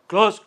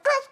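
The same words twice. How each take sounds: First: It is said in a put-on king's voice. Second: It is said in a put-on child's voice. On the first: "king's voice" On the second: "kids voice"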